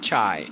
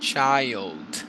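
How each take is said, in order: First: The word ends without a final d sound. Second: The word ends with a clear d sound. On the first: The speaker calls it wrong. "not chai" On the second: The speaker calls it right. "child with a d sound in the end"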